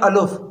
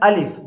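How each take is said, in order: First: The vowel after the L is u. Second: The vowel after the L is i. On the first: The speaker calls it wrong. "कुछ पढ़ते हैं अलुफ, तो ये दोनों तरीके ये गलत हैं" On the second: The speaker calls it right. "जो असल जो हर्फ है वो है अलिफ ... लाम के नीचे जेर है"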